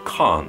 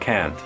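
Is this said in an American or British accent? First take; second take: British; American. First: It is said in a British accent. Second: It is said in an American accent.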